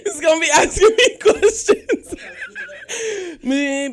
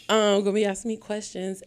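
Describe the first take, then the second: First: Laughing and a bit high; nervous giggle through the words. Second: Said in the usual way. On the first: Real, not acted. Host introduces the co-host, laughing nervously.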